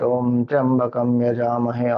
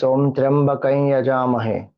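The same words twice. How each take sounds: First: "Tyambakam" with full am ending; standard pronunciation. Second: Tyambakai with "kai" joining am and ya; variant pronunciation. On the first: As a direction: say "Tyambakam" keeping the am. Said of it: "You can chant". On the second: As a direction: say "Tyambakai" merging the syllables. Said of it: "Sometimes one also says". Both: Shown as a demonstration.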